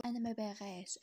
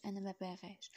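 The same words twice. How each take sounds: First: A mildly raised sobbing "أنا ما باغاش"; crying out. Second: "أنا ما باغاش" repeated much softer; sobbing repeat. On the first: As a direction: cry out "أنا ما باغاش" in mild protest. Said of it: "غوتات كتشهق بصوت مرفوع". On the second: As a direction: let "أنا ما باغاش" sink into a sob. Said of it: "كتشهق". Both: A narrator's reading.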